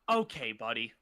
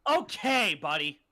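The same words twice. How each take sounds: First: It is said in a restrained, plain way. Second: It is said in a very exaggerated way.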